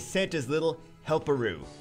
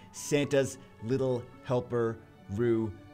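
First: The name is said fast, words running together. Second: The name is said slowly, words kept apart. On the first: The speaker calls it wrong. "It sounds like it's one word" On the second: The speaker calls it right. "I say that very slowly"

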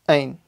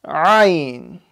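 First: The throat sound is barely attempted. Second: The throat sound is made with clear effort. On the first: The speaker calls it wrong. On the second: The speaker calls it right.

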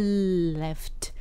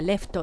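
First: The L is held long before the vowel. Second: The L is a quick tap that releases at once. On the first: The speaker calls it right. "すぐ離れないで伸ばしたまんまでleft" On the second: The speaker calls it wrong. "日本語だとラリルレロではleft って"

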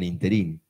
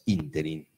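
First: The stress is on the last syllable. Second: The stress is on the first syllable. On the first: This is how people say it in Buenos Aires. The speaker calls it wrong. "Aunque en Buenos Aires digan interín" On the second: This is the dictionary form. The speaker calls it right. "la palabra correcta es interín, es esdrújula"

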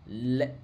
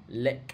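The two takes are said the same way.

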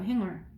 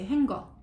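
First: No hard g sound is heard mid-word. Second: A hard g sound is heard mid-word. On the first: The speaker calls it right. "발음은 행얼이에요" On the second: The speaker calls it wrong. "얘가 쥐 때문에 행거라고 했는데"

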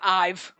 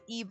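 First: The name starts with an 'eye' vowel. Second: The name starts with an 'ee' vowel. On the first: The speaker calls it wrong. "But it's not Ive" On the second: The speaker calls it right. "I'm pretty fucking sure it's, like, Eve"

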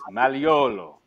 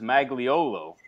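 First: The G in the name is silent. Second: The G in the name is sounded. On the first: This is the Italian way to say it. "it's Maliolo ... That G in Italian is like a silent G" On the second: This is how the name's owner says it. "he pronounces Magliolo"

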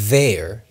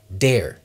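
First: The first sound is a voiced th. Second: The first sound is a d. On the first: "Th- digo, there" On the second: "puedes decir dare"

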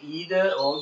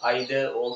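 First: It is said with an American English pronunciation. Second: It is said with a British English pronunciation.

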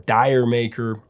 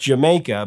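First: The title sounds like dyer maker. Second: The title sounds like the word Jamaica. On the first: The pun on a Cockney phrase is lost. The speaker calls it wrong. "in America, the song was always mispronounced" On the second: The pun on a Cockney phrase is kept. The speaker calls it right. "In the UK, the song was pronounced Jamaica"

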